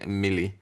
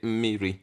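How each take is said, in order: First: The middle consonant is an l sound. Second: The middle consonant is an r sound. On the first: This is the Anambra form. "in Anambra I know you would say mmili" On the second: This is the Central Igbo form. "in Central Igbo we say mmiri"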